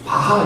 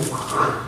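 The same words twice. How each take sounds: First: The name is said in the older Korean style. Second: The name is said with German-style pronunciation. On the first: This is how it used to be taught. "우린 바하 이렇게 배웠죠?" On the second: This is how people say it nowadays. "요즘은 ... 거의 바하 그러더라고요. 독일어 발음이니까"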